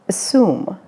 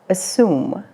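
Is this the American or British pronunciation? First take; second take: American; American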